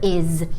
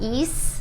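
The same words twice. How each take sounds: First: The word ends with a buzzing z sound. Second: The word ends with a hissing s sound. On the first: The speaker calls it right. "You use the Z pronunciation. So is" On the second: The speaker calls it wrong. "So it's not is"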